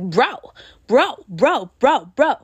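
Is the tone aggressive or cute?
cute. It sounds cute and soft.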